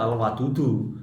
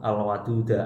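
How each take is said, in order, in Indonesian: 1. Kata itu berakhir dengan vokal u. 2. Kata itu berakhir dengan vokal a. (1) "nggak boleh dibaca al-wadudu" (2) "Ini dibaca al al-waduda"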